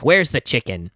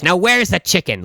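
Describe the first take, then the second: First: Imitating an expressionless customer's question; understated, insistent demand; deadpan demand. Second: Imitating an irate customer, pitched higher; mildly acted angry insistence; angry demand. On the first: Customer asking the clerk for chicken, deadpan. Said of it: "no expression". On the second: Irate lady demanding chicken from the clerk, angry. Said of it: "the most angry that he has ever seen".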